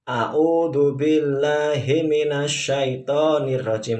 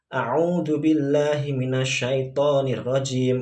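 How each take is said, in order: First: The short vowels are pronounced lowered like e and o. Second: The short vowels are pronounced as clear i and u. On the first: The speaker calls it wrong. "itu salah ya. ... bukan e atau o" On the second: The speaker calls it right. "jika lafadznya berharakat dhammah maka dibaca u"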